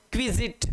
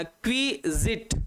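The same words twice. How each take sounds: First: Said in the usual way. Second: क्विजिट split slowly into kwi, zit; slow two-part teaching take of क्विजिट; syllable by syllable. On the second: Shown as a demonstration. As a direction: sound out क्विजिट in two separate beats. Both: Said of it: "इसका pronounce होता है".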